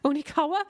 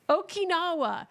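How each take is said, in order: First: The middle sounds come out as 'nika'. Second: The middle sounds come out as 'kina'. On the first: The speaker calls it wrong. "That doesn't sound right" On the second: The speaker calls it right. "You're right"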